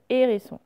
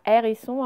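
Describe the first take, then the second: First: Said in the usual way. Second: "hérisson" starting on open è; mispronounced with è. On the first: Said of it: "c'est le son et". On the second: Shown as a demonstration. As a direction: say "hérisson" wrongly as "èrisson". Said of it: "ce n'est pas".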